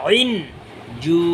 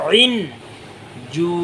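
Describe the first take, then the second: No difference in how they are said.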